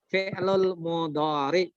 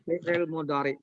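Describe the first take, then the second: First: The first word is said as fi-lul. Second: The first word is said as fi-il. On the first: The speaker calls it right. "harusnya begitu" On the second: The speaker calls it wrong. "Orang sering ngomongnya begitu"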